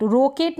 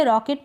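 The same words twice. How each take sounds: First: रॉकेट with a closed "oh", as "roh-ket"; mispronunciation demo. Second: रॉकेट with an open "aw"; correct vowel demo. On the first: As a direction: round the first vowel of रॉकेट to a long "o". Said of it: "रॉकेट नहीं पढ़ेंगे". (रॉकेट को "रोकेट" बोलकर दिखाना) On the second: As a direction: say रॉकेट like English "rocket". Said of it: "इसका उच्चारण अ हो रहा". (रॉकेट में ऑ की आवाज़) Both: Shown as a demonstration.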